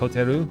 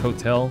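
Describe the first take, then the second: First: Three syllables, ending in a 'ru' syllable. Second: Two syllables, ending in an L sound. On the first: "For them, it's hoteru. ... they have three syllables for it" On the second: "So for me, it's hotel"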